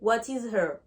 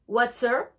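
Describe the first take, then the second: First: It is said in full, with separate words. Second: It is contracted and said more quickly.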